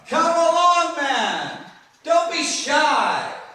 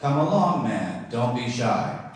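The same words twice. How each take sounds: First: The words are stretched out with personality. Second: The words are said short and flat.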